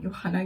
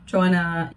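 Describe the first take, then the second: First: The name is said with a German pronunciation. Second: The name is said with an English pronunciation.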